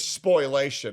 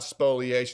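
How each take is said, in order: First: The word begins with 'spoy-l'. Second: The word begins with 'spoh-lee'. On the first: The speaker calls it right. "The word you're looking for is spoilation" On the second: The speaker calls it wrong. "It's not spoliation"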